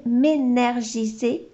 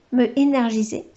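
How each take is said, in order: First: "m'énergiser" slid together with the elided m'; the clumsy first try "m'énergiser" with the slurred elision; slipped pronunciation. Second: "me énergiser" with "me" said in full, no elision; the fixed take "me énergiser", "me" said whole before "énergiser"; corrected pronunciation. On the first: ("m'énergiser" prononcé avec l'élision ratée) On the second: ("me énergiser" corrigé, "me" prononcé en entier) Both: Real, not acted. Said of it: "C'est mieux comme ça".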